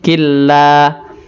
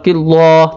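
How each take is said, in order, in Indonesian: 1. Bunyi l pada Allah terdengar tipis dan ringan. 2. Bunyi l pada Allah terdengar tebal dan berat. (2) "tidak boleh dibaca tebal"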